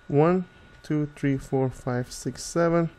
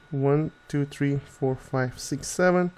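Both takes have the same delivery.

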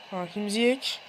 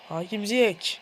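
No difference in how they are said.

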